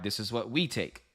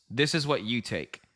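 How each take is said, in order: First: "we" stressed in contrast; pointed line with the weight on "we". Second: "you" stressed, said slowly and deliberately; slow, pointed line landing on "you". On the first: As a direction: lean on "we" to mark our side. Answers the contrast with own wins. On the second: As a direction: lean on "you" to set them apart. Contrasts viewers' wins with his own. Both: Real, not acted.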